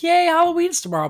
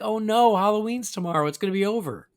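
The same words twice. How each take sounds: First: High, loud mock-excited "yay"; excited cheer. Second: Raised-pitch "oh no" of playful dread; mock dismay. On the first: Host telling co-host how they should feel, excited. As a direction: cheer it like an eager kid, much higher and louder. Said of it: "I should be excited". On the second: Host confessing dread of Halloween ending, mock dismay. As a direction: lament it with hammed-up dismay, starting loud and easing off. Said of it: "instead I'm like".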